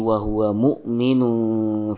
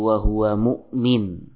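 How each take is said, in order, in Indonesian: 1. Kata itu berakhir dengan bunyi 'un' yang diucapkan. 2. Kata itu berakhir tanpa bunyi 'un' di akhir. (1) "Namun tatkala wasal dibaca" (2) "tanwin tidak terbaca kalau kita waqaf pada kata mu'min"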